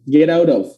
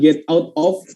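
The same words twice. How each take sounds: First: The words run together with linked sounds. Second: The words are said separately with breaks between. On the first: The speaker calls it right. "langsung get out of" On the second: The speaker calls it wrong. "bukan get out of"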